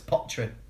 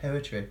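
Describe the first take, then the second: First: The word is squeezed into two syllables, pot-ry. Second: The word has its full vowel sequence, po-e-try. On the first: The speaker calls it right. "but it's potry" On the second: The speaker calls it wrong. "they're saying it wrong. Because you're saying it like poetry"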